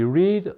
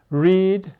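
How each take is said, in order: First: Past-tense read, short eh vowel. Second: Present-tense Read, drawn-out ee vowel; long-E reading. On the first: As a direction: read said like the colour red. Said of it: "or is also read". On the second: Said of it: "can be read or is also read". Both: Shown as a demonstration.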